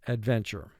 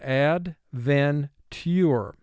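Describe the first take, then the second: First: The syllables run together in a natural flow. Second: Each syllable is said separately and carefully. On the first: This is how it sounds in everyday talk. "in conversation" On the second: This form helps with spelling the word. "for spelling, pronounce this word ad-ven-ture"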